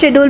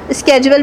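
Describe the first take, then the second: First: The word begins with an sh sound. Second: The word begins with an sk sound. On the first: "کچھ شیڈول بھی پڑھتے ہیں" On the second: "کچھ لوگ اس کو اسکیجول بھی پڑھتے ہیں"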